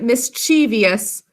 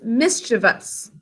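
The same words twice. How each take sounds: First: An extra 'ee' vowel comes before the ending. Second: No extra vowel comes before the ending. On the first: The speaker calls it wrong. "Some people end up pronouncing it that way" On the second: The speaker calls it right. "but it's mischievous. We don't want to add an extra E in there"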